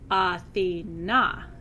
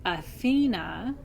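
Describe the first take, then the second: First: The stress is not on the middle syllable. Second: The stress is on the middle syllable. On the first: It names the goddess. "that's the goddess" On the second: It names the city of Athens. "with the emphasis on the middle syllable"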